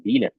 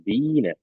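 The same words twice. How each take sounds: First: The 'i' vowel is short. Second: The 'i' vowel is long and held. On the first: The speaker calls it wrong. "jangan dibaca Bine" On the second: The speaker calls it right. "tapi panjang I-nya ya. Jadi seperti ditahan"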